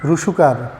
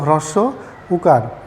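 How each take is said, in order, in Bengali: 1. শব্দটি জড়িয়ে এক ছোট শব্দে বলা হচ্ছে। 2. শব্দটির দুই অংশই পূর্ণভাবে বলা হচ্ছে। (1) "আমি অনেককেই বলতে শুনি রুসুকার, হলো না তো" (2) "শব্দটা হলো হ্রস্ব উকার"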